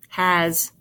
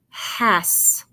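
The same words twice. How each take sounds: First: The word ends with a buzzing z sound. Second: The word ends with a hissing s sound. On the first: The speaker calls it right. "So let's try the Z sound" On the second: The speaker calls it wrong. "you just tried to make the sounds, you'd say"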